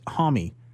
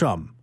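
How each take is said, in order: First: The name is pronounced the American way. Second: The name is pronounced the European way. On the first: This is how people in America say it. The speaker calls it wrong. "in America, it's Homme" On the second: This is how people in Europe say it. The speaker calls it right. "that's what they call him in Europe"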